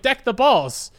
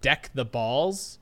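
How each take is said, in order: First: "Deck the balls" blurted out louder; eager blurt. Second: Deck the balls said slowly, each word spaced; slow deliberate catchphrase. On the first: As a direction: say it proudly for the teacher. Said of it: "I was like". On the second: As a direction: present the pun slowly. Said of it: "the catchphrase for our subject line". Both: Retold or imitated.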